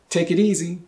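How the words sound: The words run together like one word.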